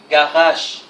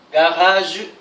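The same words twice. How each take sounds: First: The word ends in a voiceless 'sh' sound. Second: The word ends in a voiced 'zh' sound. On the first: This is how French people usually say it. "généralement, les Français prononcent comme ça, comme la deuxième" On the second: This is the canonical pronunciation. "la prononciation canonique est la première"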